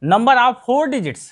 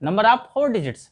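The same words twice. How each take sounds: First: Number of four digits said slowly, four stressed; slow, clear classroom read-out; teacher stating the English term slowly; slow teaching recital. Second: Number of four digits repeated slowly, four stressed; teacher answering the class question slowly. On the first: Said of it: "ठीक है". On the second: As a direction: drill the answer once more, slowly. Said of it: "ये कितने digits के हैं?". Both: Shown as a demonstration.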